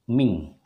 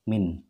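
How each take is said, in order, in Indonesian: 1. Kata ini berakhir dengan bunyi sengau ng. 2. Kata ini berakhir dengan bunyi n biasa. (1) "Tetapi dia berubah menjadi min ya" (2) "bukan lagi min qablikum seperti ini"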